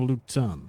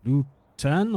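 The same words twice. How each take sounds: First: Luton with a weak, reduced second vowel; checking pronunciation. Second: Lutan with a clear TAN ending; checking pronunciation. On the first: Player offers the other name, saying Luton with unstressed ending. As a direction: say Luton as LOO-tun, ending in N. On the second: Player checks the creature's name, sounding out Lutan. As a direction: sound out Lutan slowly, full A in the second syllable. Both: Shown as a demonstration. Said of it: "Lutan or Luton?".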